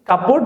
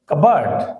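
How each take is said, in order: First: A clear 'p' sound is said mid-word. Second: No 'p' sound is said mid-word. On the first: The speaker calls it wrong. "এটাকে বলা হয় কাপবোর্ড।" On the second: The speaker calls it right. "এটার শুদ্ধ উচ্চারণ হবে কাবার্ড"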